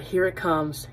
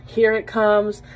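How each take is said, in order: First: Said in the usual way. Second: A bit higher and louder, eager; rising excitement. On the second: Retold or imitated. Wife bracing for a romantic declaration, excited. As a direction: lean in, it's finally coming. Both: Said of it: "Oh my God".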